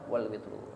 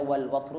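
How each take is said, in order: First: The last word has an 'i' vowel. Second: The last word has an 'a' vowel. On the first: "boleh dibaca wal wal witru" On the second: "boleh dibaca wal watru"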